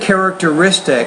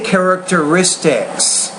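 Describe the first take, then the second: First: The word ends without a final s sound. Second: The word ends with a clear final s sound. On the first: The speaker calls it wrong. "you said characteristic" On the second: The speaker calls it right. "I say characteristics"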